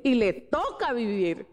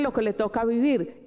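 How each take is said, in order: First: TOCA stretched out with a pitch peak; slow down and lean hard on TOCA; stress on TOCA. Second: Said in the usual way. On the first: Real, not acted. Preacher stressing the life she must live, stress on TOCA. Preacher repeats phrase for emphasis.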